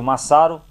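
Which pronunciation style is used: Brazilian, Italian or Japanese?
Brazilian. The name is said in a Brazilian way. "Aqui no Brasil"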